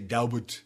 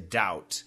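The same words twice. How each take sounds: First: The word is said with a B sound. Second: The word is said without a B sound. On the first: The speaker calls it wrong. "Don't say doubt" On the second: The speaker calls it right. "The B is silent. There's no B sound"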